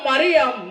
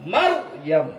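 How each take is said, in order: First: Three syllables, with an i after the r. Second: Two syllables, mar then yam, no vowel between. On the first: The speaker calls it wrong. "কোনটা বলা যাবে না" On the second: The speaker calls it right. "মারইয়াম মিম রা জবর মার, ইয়া মিম জবর ইয়াম"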